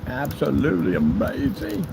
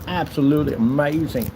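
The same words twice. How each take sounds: First: ABSOLUTELY AMAZING stretched out slowly; drawn-out repeat. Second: Said in the usual way. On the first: Pretend. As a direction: savour "absolutely amazing", syllable by syllable.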